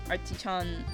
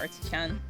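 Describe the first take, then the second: First: The name is said with a put-on accent. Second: The name is said in a plain accent. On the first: The speaker calls it right. "Sorry if the accent annoys you" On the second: The speaker calls it wrong. "just saying"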